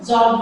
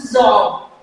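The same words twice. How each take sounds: First: जॉब with a simple initial j; common Indian pronunciation. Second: जॉब with a d sound leading into j; English-style जॉब, slight d at the front; correct English pronunciation. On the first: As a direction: say जॉब the everyday Hindi way, no extra d sound. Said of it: "इसका pronunciation हम लोग जॉब भी पढ़ते हैं". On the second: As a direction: start जॉब as "dj", tongue stopped first. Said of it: "जो correct pronunciation है वो क्या है". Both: Shown as a demonstration.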